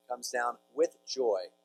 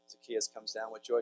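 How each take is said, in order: First: "with joy" drawn out slowly, word by word; slow down and lean on "with joy"; emphatic slow repeat. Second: Said in the usual way. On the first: Shown as a demonstration. Preacher dwells on the verse for listeners, slow stress on "with joy".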